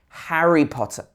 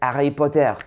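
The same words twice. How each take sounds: First: The words start with an h sound. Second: The words start without an h sound. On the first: The speaker calls it right. "It should be Harry" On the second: The speaker calls it wrong. "Don't say Harry Potter"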